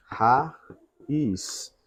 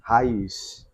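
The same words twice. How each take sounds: First: "Raiz" split in two, with a pause between syllables; teacher breaking "Raiz" into its syllables. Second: Said in the usual way. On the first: Shown as a demonstration. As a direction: say "Raiz" as ra... iz, slowly separated. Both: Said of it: "vamos separar".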